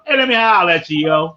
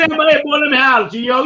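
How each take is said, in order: First: Hey holler at you in a Baltimore street accent, drawled. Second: Laughing Baltimore accent. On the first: Host hailing the panel in a Baltimore accent. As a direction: lay on the Baltimore accent to hail a friend. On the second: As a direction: stretch out the Baltimore holler while cracking up. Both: Shown as a demonstration. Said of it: "let me say in Baltimore".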